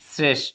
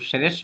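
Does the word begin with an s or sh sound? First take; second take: s; sh. First: The word begins with an s sound. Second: The word begins with a sh sound. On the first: The speaker calls it right. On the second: The speaker calls it wrong.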